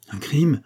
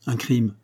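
First: Crime rising in disbelief; shocked question. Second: Said in the usual way. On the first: A narrator's reading. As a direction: echo it back, stunned. Traveller repeats in shock. («crime» monté en question incrédule)

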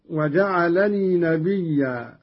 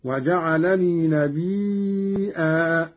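First: Said in the usual way. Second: نبيا said as "nabiii'aa"; slow recitation, نبيا with long ii cut by a hamza; hamza with long madd. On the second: Shown as a demonstration. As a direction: stretch the ii of نبيا, then a glottal stop and aa. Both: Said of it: "قرأ قالون بهمز الياء".

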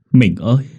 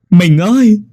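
First: Crying call. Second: Much higher, louder anguished wail; wailing cry. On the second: Husband calling his dead wife, anguished wail. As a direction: cry her name out in agony. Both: Acted. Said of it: "rồi khóc".

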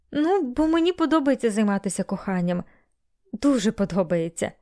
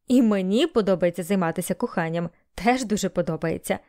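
First: Lightly voiced woman, pitched up at first; Melanie's earnest admission. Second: Bailey's matter-of-fact echo. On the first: Melanie explaining herself to Bailey, mildly defensive. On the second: Bailey echoing Melanie's confession, matter-of-fact. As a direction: echo the admission calmly, pitched down. Bailey echoes her words. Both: A narrator's reading.

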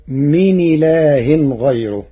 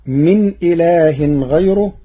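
First: من إله joined as مِنِ لاه, with a thin r in غيره; Warsh reading. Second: Said in the usual way. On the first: Shown as a demonstration. Teacher demonstrates Warsh's من إله and a thin r in غيره. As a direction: move the hamza's vowel onto the nun and keep the r in غيره light. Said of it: "بنقل حركة الهمز إلى الساكن قبله". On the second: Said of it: "قرأ ورش".

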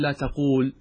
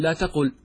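First: "لا تقول" with a long oo, la taqool; long vowel. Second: "لا تقل" with a short u, la taqul; short vowel. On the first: Teacher shows the rejected form, "تقول" with long oo. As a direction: hold the oo in "تقول". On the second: Teacher gives the corrected form, "تقل" with short u. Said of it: "وإنما تقول". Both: Shown as a demonstration.

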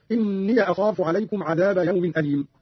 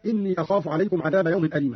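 First: إني as "inniya" before أخاف; opened ya. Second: Said in the usual way. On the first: Shown as a demonstration. Teacher shows the same rule, إني said "inniya". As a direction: end إني on a short "ya", not a long i. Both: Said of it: "وكذلك فتح ياء".

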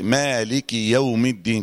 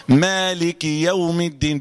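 First: "مالك" with the كاف silenced, slow; slow demo of the faulty "مالك"; wrong recitation. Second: "مالك" with the كاف clearly voweled with kasra, slow; slow, careful correct "مالك يوم الدين"; correct recitation. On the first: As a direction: recite "مالك" the wrong way, kaf without its vowel. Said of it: "أنا غلطت؟ عملت إيه؟". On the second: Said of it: "بالكسر كده". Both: Shown as a demonstration.

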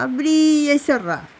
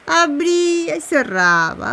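First: Chanted, abría y cerraba closing with a drop on cerraba; chanted, settle abría y cerraba down to rest; falling chant. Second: Chanted, Abría y cerraba drawn out slowly, rising at the end; chanted, sing-song Abría y cerraba, lifting on cerraba; first half of a chant, left hanging up. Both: Acted.

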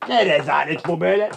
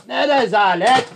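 First: Contained outrage before the outburst; indignant complaint. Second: High, slow outraged cry; indignant shout. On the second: Guest protesting the slow service, outraged shouting. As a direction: draw it out in rising outrage. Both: Acted. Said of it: "lütfen bağırmayın".

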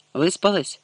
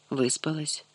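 First: Выспалась? asked as a question, the pitch falling at the end; asking question. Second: Выспалась. answered much softer, the pitch rising at the end; quiet answer. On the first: Garik asks the girl if she slept, falling question. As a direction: ask Выспалась? checking on her. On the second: Girl answers Garik about her sleep, soft and rising. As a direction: mutter back Выспалась. as a reply. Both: A narrator's reading.

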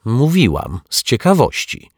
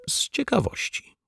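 First: Louder and higher, insisting; impatient repeat. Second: Whispered, voiceless and sheepish. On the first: Neighbour repeating her answer to the men, louder and insistent. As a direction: say it again, sharper this time. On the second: Neighbour confessing her curiosity to the detective, whispered. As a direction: breathe it out, half-ashamed. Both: A narrator's reading.

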